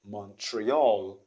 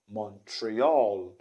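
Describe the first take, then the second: First: The stress is on the last syllable. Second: The stress is on the last syllable.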